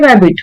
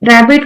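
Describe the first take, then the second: First: The word begins with a W sound. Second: The word begins with an R sound. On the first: "र को वो वो पढ़ते थे" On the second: "रैबिट को क्या बोल रहे हैं"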